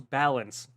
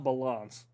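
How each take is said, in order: First: The name is said with plain English sounds. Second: The name is said with French-style sounds. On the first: The speaker calls it right. "It's Charles Balance" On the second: The speaker calls it wrong. "not Balance. ... I thought it was a French style name"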